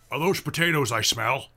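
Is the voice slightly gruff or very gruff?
slightly gruff. It is said in a slightly gruff voice.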